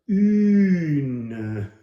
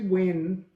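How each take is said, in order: First: The vowel is drawn out and long. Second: The vowel is short and clipped. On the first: "if it's a double U, it's got to be longer" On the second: "You can say win. It really doesn't matter"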